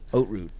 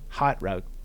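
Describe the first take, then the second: First: The first word sounds like 'oats'. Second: The first word does not sound like 'oats'. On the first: The speaker calls it right. "oat root, like oats" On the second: The speaker calls it wrong. "How badly did I butcher that"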